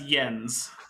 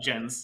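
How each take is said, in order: First: The name begins with a Y sound. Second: The name begins with a J sound. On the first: The speaker calls it right. "with a Y" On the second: The speaker calls it wrong. "not Jens"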